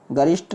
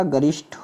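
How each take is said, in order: First: "गरिष्ठ" ending in a plain ṭ; unaspirated "गरिष्ठ". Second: "गरिष्ठ" ending in breathy ṭh; aspirated "गरिष्ठ". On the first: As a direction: say गरिष्ठ without breath on the ठ. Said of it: "नहीं होता". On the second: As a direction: release the ठ of गरिष्ठ with air. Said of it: "होता है". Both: Shown as a demonstration.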